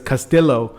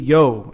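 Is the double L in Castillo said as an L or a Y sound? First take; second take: L sound; Y sound. First: The double L is said as an L sound. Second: The double L is said as a Y sound. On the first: The speaker calls it wrong. "everybody says Castillo" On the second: The speaker calls it right. "no, it's Castillo"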